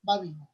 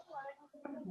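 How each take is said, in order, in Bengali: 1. ধ্বনিগুলো টান ছাড়া দ্রুত বলা হয়। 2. ধ্বনিগুলো ধীরে ও টেনে বলা হয়। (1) "হরকতের উচ্চারণ হবে তাড়াতাড়ি দ্রুত।" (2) "এটা স্লো হয়ে গেল, এটা ডিলে হলো, এখানে টান হয়ে যাচ্ছে"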